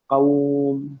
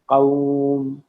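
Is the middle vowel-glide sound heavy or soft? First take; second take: soft; soft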